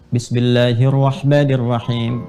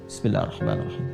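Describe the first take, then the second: First: It is said aloud in a full voice. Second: It is said softly, almost silently.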